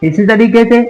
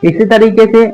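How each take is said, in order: No difference in how they are said.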